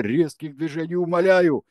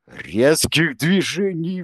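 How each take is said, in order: First: High, loud mock pleading; hammed-up imitation of a plea; mocking echo. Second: Loud, high, slow cry; stretched pleading shout; appealing cry. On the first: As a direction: parody Izya's plea. Kensi mockingly parrots Izya. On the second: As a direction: plead out to stop them. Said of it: "воззвал Изя". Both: A narrator's reading.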